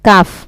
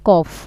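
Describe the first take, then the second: First: The vowel sounds like an open 'a'. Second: The vowel sounds like a short 'o'. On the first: The speaker calls it right. "এটা হবে কাফ" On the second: The speaker calls it wrong. "আপনি বলছেন কফ"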